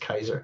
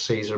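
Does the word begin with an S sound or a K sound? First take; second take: K sound; S sound. First: The word begins with a hard K sound. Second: The word begins with a soft S sound. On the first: This is how the word really is. The speaker calls it right. "I always pronounce it as a K" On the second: This is how most people say it. The speaker calls it wrong. "I know everybody says Caesar"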